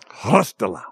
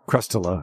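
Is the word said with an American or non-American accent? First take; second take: non-American; American. First: The word is said in a non-American accent. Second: The word is said in an American accent.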